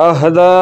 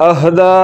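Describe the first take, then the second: No difference in how they are said.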